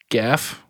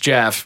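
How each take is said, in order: First: The name begins with a hard G sound. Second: The name begins with a J sound. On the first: "It's a hard G. It's goat or Gaelic" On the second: "it's a way funnier to just call the mongoose Jeff"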